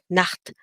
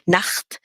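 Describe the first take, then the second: First: The throat sound is soft and gentle. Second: The throat sound is harsh and scraping. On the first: The speaker calls it right. "do you hear that at the back of your throat?" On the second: The speaker calls it wrong. "do not do it that harshly, like"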